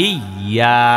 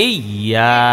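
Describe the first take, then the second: No difference in how they are said.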